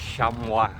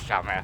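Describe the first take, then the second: First: It is said with a French-style pronunciation. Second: It is said like the English car-cloth word. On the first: "but I think it's chamois" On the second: "I always say chamois because of the car chamois"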